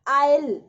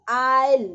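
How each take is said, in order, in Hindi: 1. शब्दों को जोड़कर एक ही अक्षर की तरह बोला जाता है। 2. शब्दों को जोड़कर एक ही अक्षर की तरह बोला जाता है।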